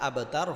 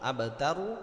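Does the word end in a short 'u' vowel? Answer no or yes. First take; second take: no; yes. First: The word ends on the 'r' consonant. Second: The word ends with a short 'u' vowel. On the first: The reader stops at this word. "কিন্তু থামলে আবতার হবে" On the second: The reading continues without a stop. "র পেশ হু আবতারু"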